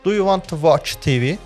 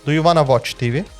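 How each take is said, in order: First: Each word is said separately and fully. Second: The words are linked together smoothly.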